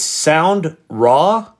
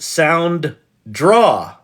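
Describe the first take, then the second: First: The second part sounds like 'raw', with no d. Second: The second part sounds like 'draw', with a d. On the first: The speaker calls it right. "It's Sound Raw" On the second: The speaker calls it wrong. "not Sound Draw, which I thought it was"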